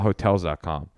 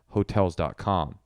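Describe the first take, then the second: First: The emphasis falls on hotels. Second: The emphasis falls on dot com. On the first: This is one person's own way of saying it. "You have your own way" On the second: This is how most people say it. "A lot of people would put the emphasis on the dot com"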